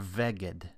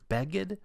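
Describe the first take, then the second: First: The word begins with a soft V sound. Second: The word begins with a hard B sound. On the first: The letter has no dagesh. The speaker calls it wrong. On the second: The letter carries a dagesh. The speaker calls it right.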